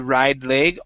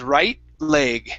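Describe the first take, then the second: First: The T is a soft flap, like a D. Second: The T is a stop, cut off sharply. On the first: The speaker calls it wrong. "We cannot pronounce a flap T with that T. Okay, we can't say ride leg" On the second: The speaker calls it right. "So what we have to pronounce here is a stop T"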